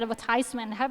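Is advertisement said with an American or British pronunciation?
American. It is said with an American pronunciation. "ถ้าเป็นอเมริกันนะ"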